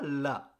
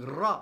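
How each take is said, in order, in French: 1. La syllabe commence par un son L. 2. La syllabe commence par un R roulé. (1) "c'est pas la" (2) "faire un peu rouler ta langue"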